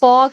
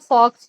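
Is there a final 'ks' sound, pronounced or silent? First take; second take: silent; pronounced. First: The word ends on the vowel with no 'ks'. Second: The word ends with a clear 'ks' sound. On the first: The speaker calls it right. "The correct pronunciation is फॉ calligraphy" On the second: The speaker calls it wrong. "Which is the wrong pronunciation"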